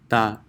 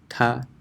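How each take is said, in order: First: An Arabic t, with the tongue touching the teeth. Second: An English t, with the tongue behind the teeth. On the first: "this is ta" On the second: "this would be English T"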